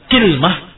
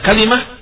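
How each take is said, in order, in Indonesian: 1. Kata ini dimulai dengan ki, tanpa vokal setelah l. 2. Kata ini punya tiga suku kata, dengan vokal setelah l. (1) "dikasrahkan kafnya ... bersama sukunul lam" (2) "Difathahkan di kafnya dan dikasrahkan lamnya. Hadza huwal afsah"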